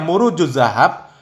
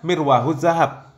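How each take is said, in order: First: The first word is pronounced 'Muruj'. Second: The first word is pronounced 'Mirwah'. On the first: The speaker calls it right. "yang seharusnya Murujuz Zahab" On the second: The speaker calls it wrong. "beliau menyebutkan Mirwahuz Zahab"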